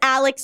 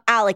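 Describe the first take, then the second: First: The name ends with a ks sound. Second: The name ends with a plain k sound. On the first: The speaker calls it right. "If it's an X, it's Alex" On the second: The speaker calls it wrong. "If it's Alec, it's spelled with a C"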